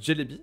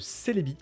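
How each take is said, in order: First: The name begins with a 'dj' sound. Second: The name begins with an 's' sound.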